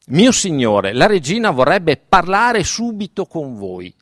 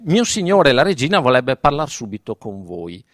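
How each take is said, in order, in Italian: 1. La parola parlare è molto enfatizzata. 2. La parola parlare non è enfatizzata.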